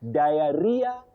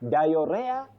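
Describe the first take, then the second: First: The word is said as 'dia' then 'ria'. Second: The word is not said as 'dia' then 'ria'. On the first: The speaker calls it right. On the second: The speaker calls it wrong.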